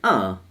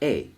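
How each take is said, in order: First: The article is a weak schwa sound. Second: The article is a full 'ay' sound. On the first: "we said uh" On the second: "and not a"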